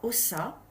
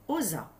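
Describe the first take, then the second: First: The middle consonant is a hissing S sound. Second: The middle consonant is a buzzing Z sound. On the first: The speaker calls it wrong. "cela ne fera pas ossa" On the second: The speaker calls it right. "il zozote"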